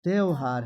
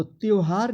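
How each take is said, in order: First: त्यौहार with a wide "au", "tyauhar"; correct pronunciation. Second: त्यौहार said as "tyohar"; wrong pronunciation. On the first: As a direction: open the first vowel of त्यौहार. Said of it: "तो त्यौहार नहीं बल्कि". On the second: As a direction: narrow glide at the start of त्यौहार. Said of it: "तो त्यौहार नहीं होता है". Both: Shown as a demonstration.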